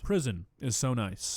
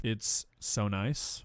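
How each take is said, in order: First: Said in the usual way. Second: Slow, sarcastic drawn-out echo; mocking drawl. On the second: Mocking the jail claim, slow and sarcastic. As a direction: stretch it out to mock the friend's claim.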